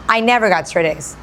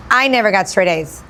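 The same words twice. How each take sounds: The two takes are said the same way.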